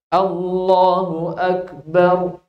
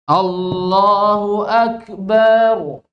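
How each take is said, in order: First: No vowel is drawn out unusually. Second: The vowel in the last syllable is drawn out. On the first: It states that God is the greatest. The speaker calls it right. "Tapi Allahu Akbar" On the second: The last word comes to mean a drum. The speaker calls it wrong. "tambah panjang baknya"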